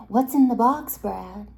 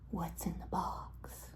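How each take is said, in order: First: Raised, much louder mock demand. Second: Slow, low-key, softened question; hushed question. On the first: Friends teasing Brad about his takeaway box, loud demand. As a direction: burst out demanding an answer. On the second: Retold or imitated. Friends teasing Brad about his takeaway box, hushed question. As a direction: ask it slowly under your voice.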